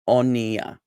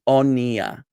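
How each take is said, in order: No difference in how they are said.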